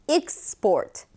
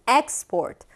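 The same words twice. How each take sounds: First: The stress is on the second syllable. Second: The stress is on the first syllable. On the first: It is a verb meaning to export. "수출하다 동사일 때는" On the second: It is a noun meaning exports. "수출일 때는"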